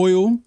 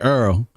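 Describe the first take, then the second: First: The vowel is the standard "oy" sound. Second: The vowel sounds like "er", as in earl. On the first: This is how it was said growing up in New York. "I was coming up saying oil" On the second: This is how it is said down south. "got down south and I ended up saying Earl"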